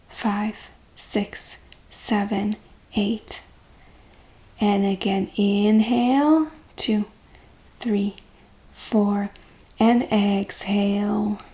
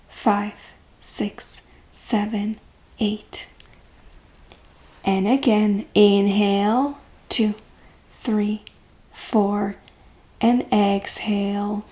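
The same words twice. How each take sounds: The two takes are said the same way.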